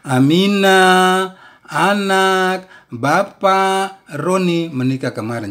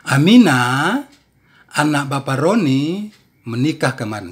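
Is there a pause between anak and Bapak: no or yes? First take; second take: yes; no. First: Pauses separate Aminah, anak, Bapak and Roni. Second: Pauses come after Aminah and after Roni only.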